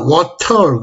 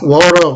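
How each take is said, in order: First: It is said with a British accent. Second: It is said with an American accent. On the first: The waiter finally understood it. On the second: The waiter could not understand it.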